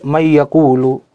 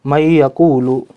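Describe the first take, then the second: First: The n is pronounced separately before the y. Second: The n is pronounced separately before the y.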